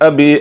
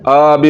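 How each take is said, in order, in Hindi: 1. पहला स्वर छोटा है। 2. पहला स्वर लंबा खींचा जाता है। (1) "ज़बर को लंबा नहीं करना है" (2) "ये गलत है"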